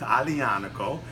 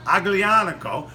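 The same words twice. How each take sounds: First: It is said with an Italian pronunciation. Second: It is said with an American accent. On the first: The speaker calls it right. "is the proper pronunciation" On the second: The speaker calls it wrong. "You could sound American like me in New York"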